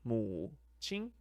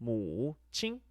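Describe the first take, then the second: No difference in how they are said.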